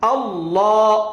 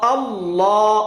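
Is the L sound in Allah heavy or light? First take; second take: heavy; heavy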